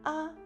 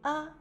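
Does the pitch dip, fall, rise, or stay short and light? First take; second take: short; short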